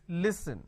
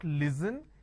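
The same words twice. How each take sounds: First: The middle consonant is an s sound. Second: The middle consonant is a z sound. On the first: The speaker calls it right. "it's listen" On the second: The speaker calls it wrong. "They replace the s with a z and they say listen. It's not listen"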